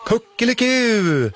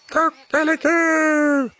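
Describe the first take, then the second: First: High, slow playful mock crow; children imitating a rooster. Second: Very high, slow drawn-out cock-a-doodle-doo; rooster crowing. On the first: The children answering the rooster with a high, playful mock crow. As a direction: answer the rooster like kids copying it. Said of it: "svarar alla barnen". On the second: The rooster greeting the visitors with a high, slow crow. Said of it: "gal tuppen". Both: A narrator's reading.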